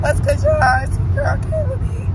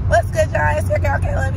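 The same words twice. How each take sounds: First: High sing-song on "Kayla B."; playful intro. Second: Said in the usual way. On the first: Shown as a demonstration. Introducing herself to viewers, high playful voice. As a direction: pitch "your girl, Kayla B." way up. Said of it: "signature intro voice". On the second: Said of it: "second take plainer".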